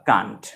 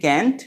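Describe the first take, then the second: First: It is said with a British accent. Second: It is said with an American accent.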